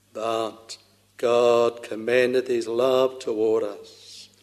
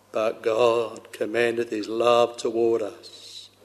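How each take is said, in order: The two takes are said the same way.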